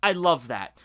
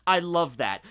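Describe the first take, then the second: No difference in how they are said.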